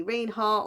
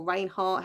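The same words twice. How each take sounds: First: Reinhart said as "REEN-hart"; first pronunciation guess. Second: Reinhart said as "RAIN-hart"; alternative pronunciation guess. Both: Shown as a demonstration. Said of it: "however she says it".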